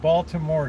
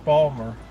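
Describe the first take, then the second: First: All three syllables are pronounced in full. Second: One syllable is dropped, in a Baltimore accent. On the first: "Instead of Baltimore" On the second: "we always drop a syllable in Baltimore"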